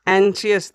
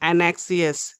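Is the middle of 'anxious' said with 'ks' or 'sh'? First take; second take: sh; ks. First: The middle is said with an 'sh' sound. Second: The middle is said with a 'ks' sound. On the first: The speaker calls it right. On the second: The speaker calls it wrong.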